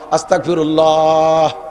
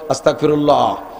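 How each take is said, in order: First: It is drawn out the longest. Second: It is said short and brief.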